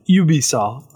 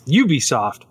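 First: It is said with a French pronunciation. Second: It is said with an English pronunciation.

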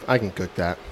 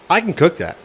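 First: The phrase is said flatly, without much energy. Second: The phrase is said with lively flair and emphasis. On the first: The speaker calls it wrong. "you don't say it like" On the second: The speaker calls it right. "You're like, ... Get a little flair in there"

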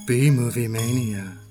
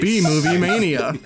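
First: It is said in a sexy, seductive voice. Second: It is said in a radio announcer voice.

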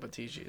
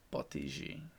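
First: The name is said plainly without an accent. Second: The name is said with a put-on accent. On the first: The speaker calls it wrong. "that sounds weird" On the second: The speaker calls it right. "every time you do say it right, you always have to use the accent"

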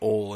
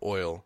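First: The vowel is plain, with no 'ee' glide. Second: The vowel glides fully, like 'oy'.

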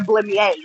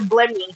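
First: The final vowel of the name is pronounced. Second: The final vowel of the name is left silent. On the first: It is the fancy version. "it sounds fancier if I say Blemmyae" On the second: It is the ordinary, plain version. "I don't want a regular Blemmy"

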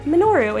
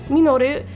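First: The name is said with an American accent. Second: The name is said with a Japanese accent. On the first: "we said Minoru" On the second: "instead of Minoru"

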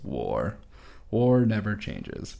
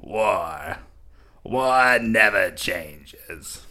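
First: It is said in the speaker's normal voice. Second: It is said in an evil Palpatine voice.

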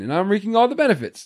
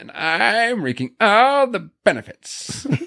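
First: The line is said in a plain, ordinary way. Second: The line is said in an exaggerated, dramatic way. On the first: "he doesn't say it like that at all. He's like, ... Just says it normal" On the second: "I have to throw in that"

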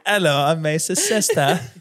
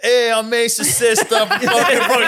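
First: It is said in a British accent. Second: It is said in a Brooklyn accent.

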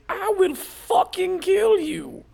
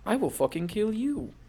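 First: It is screamed loudly. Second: It is said in a soft voice.

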